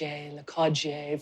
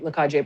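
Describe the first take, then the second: First: The name is said with a French-style pronunciation. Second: The name is said with an English-style pronunciation. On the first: This is how people out east say the name. "much more of a Le Cage, Le Cage, French type" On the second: This is how the local speakers say the name. "I probably am butchering the pronunciation, but that's that's how we describe it"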